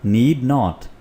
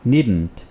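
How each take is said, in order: First: It is said as two full separate words. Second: It is said as one short contracted word. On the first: "और ये है नीड नॉट।" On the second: "contraction के साथ pronounce करें तो ये बनेगा नीडंट"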